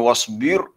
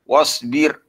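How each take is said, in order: First: The r is heavy, with rounded lips. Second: The r is light, with spread lips. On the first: The speaker calls it wrong. "bukannya wasbir, bukan dimucungkan mulut" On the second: The speaker calls it right. "Ra di sini kita kena baca dengan nipis ya"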